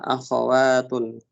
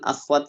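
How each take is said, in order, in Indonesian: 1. Terdengar vokal a antara kh dan w. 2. Tidak terdengar vokal antara kh dan w. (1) "Yang tepat adalah akhawatun" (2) "yang beredar kan akhwat gitu. Kok-nya yang disukun. Padahal itu pelafalan yang kurang tepat"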